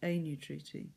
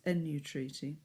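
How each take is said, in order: First: The first vowel is long. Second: The first vowel is short. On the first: The speaker calls it right. "It's a long E" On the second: The speaker calls it wrong. "common mistakes"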